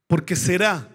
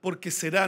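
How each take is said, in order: First: "será" with the final A stressed and falling firmly; acento en la A de será. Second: "será" stressed on the A, softer and rising; acento en la A de será. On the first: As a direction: lean hard on the "rá" of "será", sure and final. (acento fuerte en la "á" de "será", tono firme y descendente) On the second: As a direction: stress the "rá" of "será" quietly, lifting at the end. (acento en la "á" de "será", más suave y subiendo) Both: Shown as a demonstration. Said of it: "¿Dónde está el acento en la A?".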